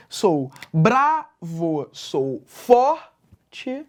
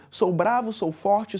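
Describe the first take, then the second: First: "sou bravo, sou forte" slow and split, punching "bra" and "for"; "sou bravo, sou forte" with strong beats on "bra" and "for"; stressed-syllable scansion. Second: Lines run whole in an even cadence; connected, measured poem recitation; rhythmic verse reading. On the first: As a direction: hit the first syllables of "bravo" and "forte", every syllable apart. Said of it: "enuncio com mais força são as tônicas". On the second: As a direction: read the verse with a steady beat. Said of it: "você percebe que tem uma cadência ali". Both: Shown as a demonstration.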